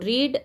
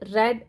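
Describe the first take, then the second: First: The word has a long ee vowel. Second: The word has a short e vowel. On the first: It is the present tense form. "Spelling तेच राहतं, फक्त उच्चार बदलतो" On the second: It is the past tense form. "आपण त्याचा उच्चार रेड असा केलेला आहे"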